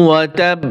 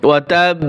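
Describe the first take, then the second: The two takes are said the same way.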